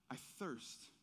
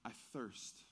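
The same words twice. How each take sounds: First: Quiet repeat. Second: Quiet quote. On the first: Shown as a demonstration. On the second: Retold or imitated. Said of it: "Jesus says these two words".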